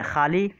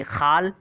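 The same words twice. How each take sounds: First: Said in the usual way. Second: खाल said as khaal, short, no final vowel; a self-correction, खाल with a rising tune; corrected word. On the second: Shown as a demonstration. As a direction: say खाल, not खाली, ending on the l. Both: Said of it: "sorry, खाल".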